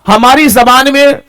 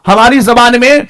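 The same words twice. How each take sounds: The two takes are said the same way.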